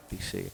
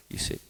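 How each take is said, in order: Both takes have the same delivery.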